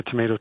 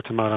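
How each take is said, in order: First: Long A in the middle of tomato; the "may" version of tomato. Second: Broad A in the middle of tomato; the "mah" version of tomato. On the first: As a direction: say tomato as "tuh-MAY-toh". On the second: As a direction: say tomato as "tuh-MAH-toh". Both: Shown as a demonstration. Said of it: "how it's supposed to be pronounced".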